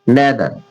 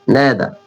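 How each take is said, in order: No difference in how they are said.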